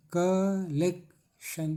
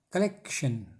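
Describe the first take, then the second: First: collection very slow, KAAA-LEK-SHAN; broken into syllables. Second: Said in the usual way. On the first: Shown as a demonstration. Teacher breaking up collection for students, slow separated syllables. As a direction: split collection into three drawn-out beats. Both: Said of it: "तोड़िए syllable में".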